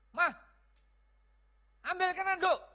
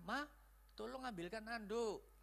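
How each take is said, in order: First: Loud, high demanding yell; bossy shouted command, pitched way up; wrong tone. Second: Soft, kindly request to a wife; gentle, easy-on-the-ear favour; nice tone. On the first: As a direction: order the wife sharply at a shout. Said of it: "Karena nadanya sudah salah". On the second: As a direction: ask sweetly and quietly. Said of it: "Nah, baik kan? Nangkepnya enak". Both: Shown as a demonstration.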